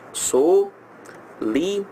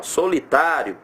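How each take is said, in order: First: "Solitário" very slowly, broken into so, li, tá, rio; "Solitário" drawn out as four detached syllables. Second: Said in the usual way. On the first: Shown as a demonstration. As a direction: separate every syllable of "Solitário" with a clear pause. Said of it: "Solitário separa assim". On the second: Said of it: "como é que separa solitário".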